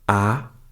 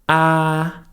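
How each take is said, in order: First: The pitch rises upward. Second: The pitch stays level and flat. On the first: "requires you to raise your voice a little bit" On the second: "The first tone is the flat tone"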